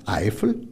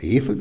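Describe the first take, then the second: First: The name is said in standard German pronunciation. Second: The name is said in the local pronunciation.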